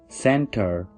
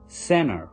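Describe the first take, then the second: First: The T after the N is heard. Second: The T after the N is dropped.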